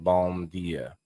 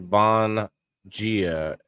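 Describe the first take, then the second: First: The first word ends with closed lips, m. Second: The first word ends in an n-like nasal. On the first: The speaker calls it wrong. "instead of bom dia" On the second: The speaker calls it right. "It's it's pronounced like bon dia"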